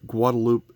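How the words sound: The name is said with French pronunciation. The speaker calls it right. "they use a French pronunciation of that word"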